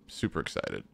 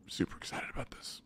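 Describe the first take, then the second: First: Flat, much lower "Super excited"; deadpan low. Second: Unvoiced whisper "Super excited about this". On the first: Gamer to viewers about the lift, deadpan low. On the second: Gamer to viewers, whispered mock excitement. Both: Shown as a demonstration.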